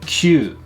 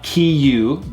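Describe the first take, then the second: First: It is said as one short syllable, kyu. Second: It is split into two syllables, ki and yu. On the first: The speaker calls it right. "but kyu" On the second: The speaker calls it wrong. "Not kiyu"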